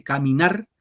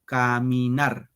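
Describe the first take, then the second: First: Caminar said whole, leaning on final "nar"; stress on third syllable. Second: Caminar slowly split as ca, mi, nar; syllable by syllable. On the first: Teacher counting syllables of the verse, caminar whole with stressed ending. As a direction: caminar in one piece, weight on "nar". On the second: Teacher showing the third syllable, slow syllable-by-syllable caminar. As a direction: draw out each syllable of caminar, landing on "nar". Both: Shown as a demonstration. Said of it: "En la tercera sílaba va el acento".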